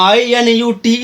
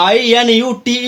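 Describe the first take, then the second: Both takes have the same delivery.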